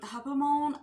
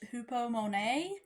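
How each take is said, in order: First: The word is said hesitantly, with syllables blurred. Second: The word is said carefully, with all syllables full. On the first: The speaker calls it wrong. "I butchered that word so bad" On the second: The speaker calls it right. "that word is actually pronoun- pronounced hupomone"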